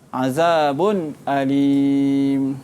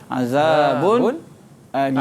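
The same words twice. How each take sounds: First: A clear glottal stop begins the second word. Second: A brief silent pause separates the two words. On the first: "khalaf baca dengan tahqiq, iaitu dia baca dengan izahlah halqi" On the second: "Yang ketiga dia baca dengan saktah"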